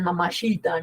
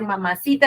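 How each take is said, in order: First: The third syllable starts with a ch sound. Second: The third syllable starts with an s sound. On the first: This is how the foreign singers say it. The speaker calls it wrong. "Ni siquiera pronuncian bien, ... dicen mamachita, ¿no? Así" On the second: This is the standard Spanish pronunciation. The speaker calls it right. "en vez de decir mamacita"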